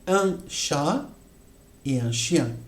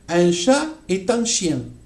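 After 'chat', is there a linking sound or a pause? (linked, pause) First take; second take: pause; linked. First: A pause separates 'chat' from the next word. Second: 'Chat' runs straight into the next word. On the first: A cat and a dog. The speaker calls it right. "il faut faire la pause. Pause obligatoire" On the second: A cat is a dog. The speaker calls it wrong. "Si je fais la liaison, c'est interdit"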